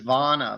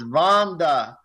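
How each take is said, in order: First: The name is said without a d sound. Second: The name is said with a d sound. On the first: The speaker calls it wrong. "First, I thought it was Vonna, like Donna with the V" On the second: The speaker calls it right. "but it's no, it's Vonda"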